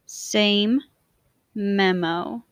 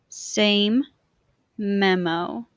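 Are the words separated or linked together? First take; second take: separated; separated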